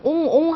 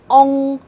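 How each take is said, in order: First: The vowel is a clear, fully rounded o. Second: The vowel is an in-between, less rounded sound. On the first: The speaker calls it wrong. "그냥 옹옹 하시면 안 되고요" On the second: The speaker calls it right. "약간 좀 이것도 아닌 저것도 아닌 발음해서"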